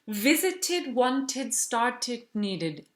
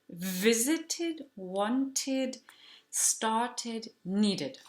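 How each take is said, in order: First: The list is said very fast. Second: The list is said at a normal pace.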